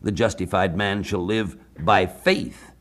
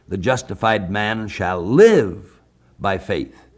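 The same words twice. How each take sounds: First: The stress is on the word faith. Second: The stress is on the word live.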